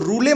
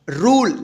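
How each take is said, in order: First: The word ends with an extra e vowel sound. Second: The word ends without a final vowel sound. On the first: The speaker calls it wrong. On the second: The speaker calls it right.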